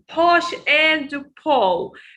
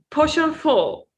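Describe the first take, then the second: First: The word and is pronounced in full. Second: The word and is reduced to n. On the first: The speaker calls it wrong. "It's not um" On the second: The speaker calls it right. "reduction in American accent, n. We don't say and"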